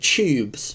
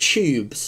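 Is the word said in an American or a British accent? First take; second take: British; British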